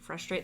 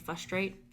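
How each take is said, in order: First: The R after the F is pronounced. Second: The R after the F is dropped. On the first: The speaker calls it right. "the R in frustrate" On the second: The speaker calls it wrong. "When people don't pronounce the R in frustrate, they say"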